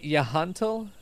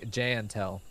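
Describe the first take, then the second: First: The name begins with a Y sound. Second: The name begins with a J sound. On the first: "Are we going Nordic?" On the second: "or is it J?"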